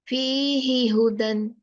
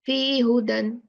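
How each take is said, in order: First: The syllable 'hi' is fully pronounced. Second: The syllable 'hi' is left out. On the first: The speaker calls it right. "the right pronunciation is fihihudan" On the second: The speaker calls it wrong. "It's not fihudan. We are not allowed to remove any letter"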